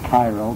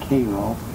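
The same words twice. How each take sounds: First: It is said the way most people say it. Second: It is said the way southern Illinois locals say it. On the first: This is how people elsewhere say the name. "everyone else would pronounce it Cairo" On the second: This is how people from that region say the name. "anyone from that part of Illinois, it was always Cairo"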